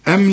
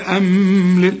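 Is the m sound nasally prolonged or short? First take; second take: short; prolonged. First: The m is short without a nasal hum. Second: The m is held with a nasal hum. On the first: The speaker calls it right. "كل ميم عليها سكون لا تغن" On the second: The speaker calls it wrong. "اوعى تقول لي"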